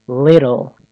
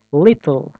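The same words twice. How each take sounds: First: Little with the T as a quick D, like liddle; flap T. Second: Little with a hard released T; wrong clear T. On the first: Teacher models the correct flapped little. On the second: Teacher demonstrates the wrong pronunciation of little. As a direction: say Little with a stiff T. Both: Shown as a demonstration.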